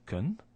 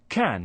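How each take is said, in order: First: The word is said with a reduced vowel. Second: The word is said with a full vowel. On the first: "the weak form" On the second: "which is the strong way of pronouncing that word"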